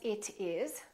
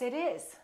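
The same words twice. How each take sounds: First: The t is a clear, separate t sound. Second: The t is a linked, d-like sound. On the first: The speaker calls it wrong. "So we don't say" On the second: The speaker calls it right. "We say"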